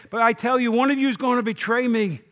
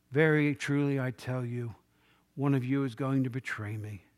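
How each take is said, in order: First: Louder, higher accusation; angry indignation. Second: Low, subdued and grave; troubled in spirit. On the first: Jesus confronting his friends at the table, angry and indignant. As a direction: burst out with indignation at the coming betrayal. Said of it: "he's angry that this is going to happen". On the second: Jesus telling his disciples of the betrayal, troubled and subdued. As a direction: say it quietly, weighed down by what is coming. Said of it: "he was troubled in spirit". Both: Retold or imitated.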